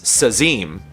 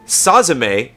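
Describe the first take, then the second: First: The name is said as 'Sazim'. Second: The name is said as 'Sazime'. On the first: The speaker calls it right. "it's Sazim" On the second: The speaker calls it wrong. "it's not Sazime"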